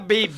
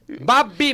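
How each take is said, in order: First: The word is said as one syllable, 'babe'. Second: The word is said as two syllables, 'ba-bi'. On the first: The speaker calls it wrong. "Di, di man na, babe" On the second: The speaker calls it right. "Babi man na"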